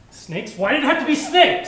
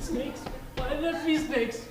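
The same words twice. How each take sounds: First: It is said in a hostile tone. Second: It is said like someone hiding in fear.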